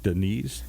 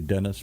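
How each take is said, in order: First: The name sounds like Denise. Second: The name sounds like Dennis. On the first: The speaker calls it right. "but it's like Denise" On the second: The speaker calls it wrong. "I say Dennis"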